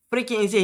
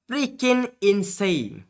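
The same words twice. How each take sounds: First: Said in the usual way. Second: Slow disbelief. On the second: Real, not acted.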